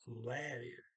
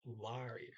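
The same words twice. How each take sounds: First: "larier" with the first vowel as in "dad". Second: "larier" with an open AH in the first syllable; older pronunciation. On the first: Teacher giving how they hear it now, A as in dad. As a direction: say the start of "larier" with a flat A, as LAIR. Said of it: "Now I hear it as". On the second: Teacher recalling how they used to hear it, LAH-ree-er. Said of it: "I used to hear it as". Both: Shown as a demonstration.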